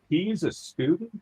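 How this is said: It sounds surprised that he is a student.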